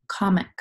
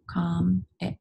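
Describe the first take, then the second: First: Said in the usual way. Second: "Com, ic" split by a pause; syllable by syllable. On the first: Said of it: "our next word is comic". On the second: Shown as a demonstration. Teacher helping pupils feel the syllables, each said separately. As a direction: break it into "Com" and "ic", evenly spaced. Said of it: "Feel your syllables".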